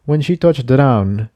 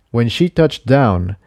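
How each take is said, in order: Both takes have the same delivery.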